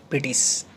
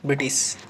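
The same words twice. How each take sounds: The two takes are said the same way.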